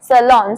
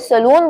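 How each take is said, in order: First: The second syllable has an 'o' vowel. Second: The second syllable has an 'oo' vowel. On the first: The speaker calls it right. "आपको बोलना है सलोन" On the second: The speaker calls it wrong. "अगर सलून बोलोगे तो गलत हो जाएगा"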